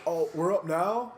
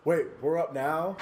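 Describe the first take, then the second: First: Slow startled "Oh, we're up now?"; a hint of panic; surprised question. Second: Slow surprised question, a touch of fright; surprised and caught off guard. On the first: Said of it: "And he goes". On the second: Retold or imitated. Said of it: "one of the two goes".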